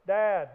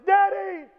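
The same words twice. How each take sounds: First: Plain call. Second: "Daddy!" screamed much higher and louder in panic; anguished shriek. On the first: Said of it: "the first one is". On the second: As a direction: scream "Daddy!" like a child in danger. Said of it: "the second one is". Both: Shown as a demonstration.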